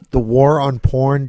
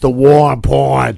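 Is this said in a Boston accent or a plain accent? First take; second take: plain; Boston. First: It is said in a plain, non-Boston accent. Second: It is said in a Boston accent.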